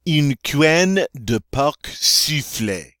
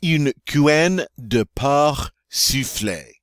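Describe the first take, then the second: First: "porc" ending in a hard K sound; slow French phrase with a K closing "porc"; C pronounced in porc. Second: "porc" ending on the R, no K sound; slow, careful French with "porc" said like "por"; silent C in porc. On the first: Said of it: "not supposed to pronounce the C on pork". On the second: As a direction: leave the final C of "porc" silent. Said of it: "So let me try that again". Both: Shown as a demonstration.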